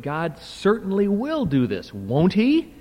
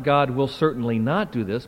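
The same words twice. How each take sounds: First: High, punched "certainly will", rising "won't he?"; emphatic affirmation with tag question. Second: Said in the usual way. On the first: Shown as a demonstration. Lecturer giving the correct reading, emphatic rhetorical question. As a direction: insist on "will", then lift "won't he?" high. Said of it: "When it's in a question, can express emphatic affirmation". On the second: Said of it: "So, not".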